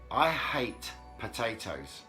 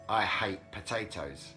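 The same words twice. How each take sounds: First: The words are said separately and carefully. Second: The words are linked together smoothly.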